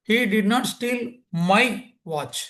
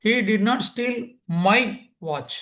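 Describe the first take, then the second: First: The word my carries the main stress. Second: The word my carries the main stress.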